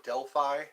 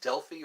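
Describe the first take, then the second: First: Delphi ending in "fye"; Delphi rhyming its last syllable with eye; alternative pronunciation. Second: Delphi ending in "fee"; Delphi with a long ee at the end; alternative pronunciation. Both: Shown as a demonstration. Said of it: "I think that's how it's pronounced".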